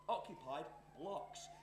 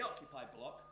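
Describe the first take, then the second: First: "blocks" drawn out slowly as a question; slow, teasing emphasis on the end of "blocks"; stress on plural. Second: Said in the usual way. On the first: Acted. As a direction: spell out "occupied blocks" slowly, leaning on the plural. Teasing contrast with the singular.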